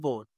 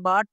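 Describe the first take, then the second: First: The vowel sounds like a rounded 'oh'. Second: The vowel sounds like an open 'ah'. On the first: The speaker calls it right. "By బోట్, బోట్" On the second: The speaker calls it wrong. "కొంతమంది by బాట్, బాట్ అంటారు. అది కాదు"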